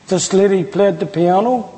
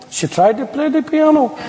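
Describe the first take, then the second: First: Said in the usual way. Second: Higher-pitched correction leaning on "tried"; wry emphasis on "tried", pitched up; stress on TRIED. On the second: Shown as a demonstration. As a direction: stress "tried" to cast doubt on the playing. Joking correction of played.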